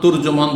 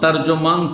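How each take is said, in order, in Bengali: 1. প্রথম স্বরধ্বনিটি 'u'-এর মতো শোনায়। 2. প্রথম স্বরধ্বনিটি 'a'-এর মতো শোনায়। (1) "আরবিতে তুরজমানটা বেশি শুদ্ধ" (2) "তর্জমান তুরজমান দুটি পড়া যায়"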